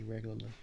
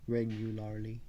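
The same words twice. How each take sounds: First: Said in the usual way. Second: "Regularly" said carefully, every syllable sounded; careful enunciation. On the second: Real, not acted. Speaker repairs a slurred word, "Regularly" carefully enunciated. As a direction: give "Regularly" all its syllables, distinctly.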